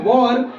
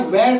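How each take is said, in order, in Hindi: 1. स्वर 'or' जैसा लगता है। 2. स्वर 'air' जैसा लगता है। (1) "इसे पढ़ते हैं वॉर" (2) "वैर टाइप की आवाज आ रहा है तो ये गलत है"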